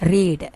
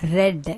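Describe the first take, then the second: First: The vowel is a long 'ee' sound. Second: The vowel is a short 'e' sound. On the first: It is the present form of the verb. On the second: It is the past form of the verb.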